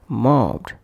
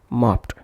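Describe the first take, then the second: First: The ending is pronounced as a d sound. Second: The ending is pronounced as a t sound. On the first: The speaker calls it right. "ed is pronounced as d" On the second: The speaker calls it wrong. "not as t"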